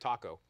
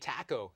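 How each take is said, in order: First: It is said in an American accent. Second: It is said in a Canadian accent. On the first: "instead of taco" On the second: "we say taco"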